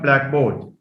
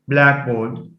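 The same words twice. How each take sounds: First: The stress is on the second part. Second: The stress is on the first part. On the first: The speaker calls it wrong. "So it's not" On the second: The speaker calls it right. "It receives stress on the first element"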